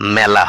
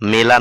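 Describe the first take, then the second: First: The first vowel is an open ae sound. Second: The first vowel is a plain e sound. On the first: The speaker calls it right. "আকৃযুক্ত একারের জন্যই ... হবে" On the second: The speaker calls it wrong. "না"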